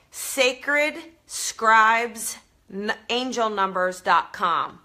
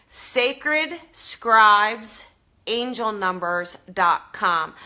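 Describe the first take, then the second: First: Slowly and clearly, each word set apart; slow careful spelling out. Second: Said in the usual way. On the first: Shown as a demonstration. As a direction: spell out the site name slowly. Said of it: "so that you can understand it with my Jersey accent". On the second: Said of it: "I'll try to say this so that you can understand it".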